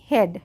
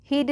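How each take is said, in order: First: हेड with an "e" vowel, as in bed; correct pronunciation. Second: हीड with a long "ee"; wrong pronunciation. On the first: Teacher corrects the reading for learners, correctly pronounced. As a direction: say हेड, no "ee" sound. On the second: Teacher shows what not to read, mispronounced with "ee". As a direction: stretch the vowel of हीड to "heed". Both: Shown as a demonstration. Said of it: "हीड नहीं".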